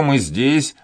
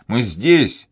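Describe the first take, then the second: First: Громкий зов, подъём на «мы»; кричит «мы» выше остального; ободряющий крик. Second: Громко, ударение на «здесь»; кричит, нажимая на «здесь»; повторный крик. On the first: (кричит собаке: «мы здесь») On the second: (кричит собаке: «мы здесь!») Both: A narrator's reading. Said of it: "закричал Данник".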